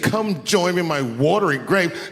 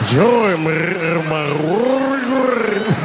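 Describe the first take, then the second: First: It is said in a plain voice. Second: It is said with a rolling, gurgling throat.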